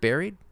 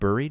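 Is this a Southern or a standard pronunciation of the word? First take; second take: standard; Southern. First: The word has its standard, non-regional vowel. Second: The word has a Southern regional vowel. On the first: "the way some people pronounce the word buried" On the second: "Like down south"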